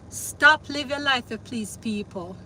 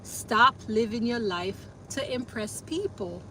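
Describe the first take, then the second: First: It is spoken in a patois accent. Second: It is spoken in a standard English accent. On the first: "Let me say it in patois" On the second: "Let me say it in standard English"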